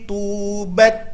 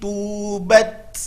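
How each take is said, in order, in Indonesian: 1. Bunyi t di akhir dibuat dengan bersih di tempatnya. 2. Bunyi t di akhir bergeser keluar dari tempatnya. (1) "Itu ketika sukun" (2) "Itu salah, lari dari makhraj"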